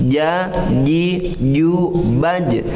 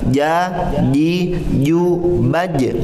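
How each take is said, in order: The two takes are said the same way.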